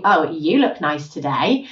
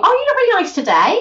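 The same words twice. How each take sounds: First: Slow, low, loaded compliment; backhanded compliment. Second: High, lilting, sincere-sounding compliment; nice compliment. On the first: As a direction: drag the words out low so the praise sounds doubtful. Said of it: "they're saying something very different". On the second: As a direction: say it brightly, rising high as if truly meaning it. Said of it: "that sounds nice". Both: Shown as a demonstration.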